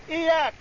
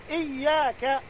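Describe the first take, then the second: First: إياك with a single light y; إياك said iyāka with an ungeminated y; without shadda. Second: إياك with a doubled, held y; إياك said iyyāka with a stressed geminate y; with shadda. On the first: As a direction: say إياك as iyāka, y not doubled. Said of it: "بالتخفيف". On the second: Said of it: "قرأ الجمهور بالتشديد". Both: Shown as a demonstration.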